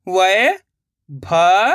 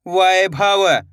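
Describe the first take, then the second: First: वैभव stretched very slowly, rising; drawn-out sounding out. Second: Said in the usual way. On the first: Shown as a demonstration. Teacher sounding out वैभव slowly for pupils. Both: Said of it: "अब आगे देखिए".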